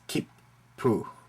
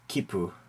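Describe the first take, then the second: First: A brief pause holds the double p in the middle. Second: The word runs on with no catch in the middle. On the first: The speaker calls it right. "Try to pronounce both consonants with a very short pause in between" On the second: The speaker calls it wrong. "Not kippu or kipu"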